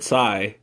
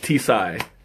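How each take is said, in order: First: The word starts without a T sound. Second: The word starts with a clear T sound. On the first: "some places you could call it Psy" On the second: "you do pronounce the T"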